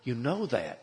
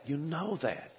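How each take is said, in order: First: Said in the usual way. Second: Higher and softer, urgent plea; pleading. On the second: Retold or imitated. Preacher urging the adulterous man, higher soft plea. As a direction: repeat it gently, begging him to see. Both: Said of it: "I started to plead with him".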